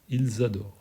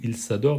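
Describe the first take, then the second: First: The words are linked with a Z sound. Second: The words are linked with an S sound. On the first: The speaker calls it right. "C'est un Z" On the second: The speaker calls it wrong. "on ne dit pas"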